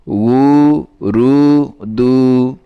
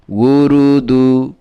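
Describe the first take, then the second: First: Each syllable drawn out and separated; slow syllables. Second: Said in the usual way. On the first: Shown as a demonstration. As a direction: pull উ রু দু apart slowly, one by one. (উ রু দু ধীরে আলাদা আলাদা করে) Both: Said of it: "syllables split then joined".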